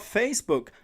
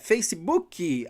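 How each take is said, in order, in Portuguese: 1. Ela termina limpa, na consoante final. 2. Uma vogal extra, ee, é acrescentada no final. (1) "não tem um izinho no final" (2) "colocar uma letra I no final de tudo"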